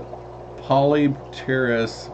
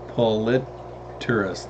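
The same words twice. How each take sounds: First: The second P is sounded. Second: The second P is silent. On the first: The speaker calls it wrong. "They saying it incorrect" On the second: The speaker calls it right. "actually pronounced as Polypterus. The second P is silent"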